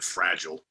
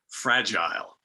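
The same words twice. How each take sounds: First: It is said with an American pronunciation. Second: It is said with a British pronunciation.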